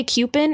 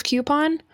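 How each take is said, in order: First: "coupon" with a reduced, "pin"-like last syllable; odd pronunciation. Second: "coupon" with a full "pon" ending; contrasting pronunciation. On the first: Retold or imitated. Questioning friend's pronunciation, odd "coupon" ending like "pin". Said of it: "say coupon instead of coupon". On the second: Shown as a demonstration. Correcting a friend's word, "coupon" with clear "pon" ending. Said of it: "instead of coupon".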